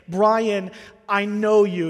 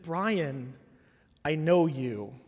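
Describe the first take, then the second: First: The tone sounds accusing and triumphant. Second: The tone sounds gentle and caring. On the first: The speaker has caught the listener doing wrong. "He wasn't saying" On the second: The speaker believes the listener is better than this. "it was the tone of his voice"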